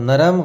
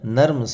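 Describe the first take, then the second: First: A short vowel separates the final two consonants. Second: The final two consonants join with no vowel. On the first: The speaker calls it wrong. "नरम गलत" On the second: The speaker calls it right. "नर्म सही"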